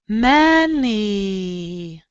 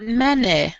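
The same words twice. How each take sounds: First: The final vowel is a long E sound. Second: The final vowel is a short sound. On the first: The speaker calls it right. "This is many, You have to get the long E sound" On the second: The speaker calls it wrong. "not many"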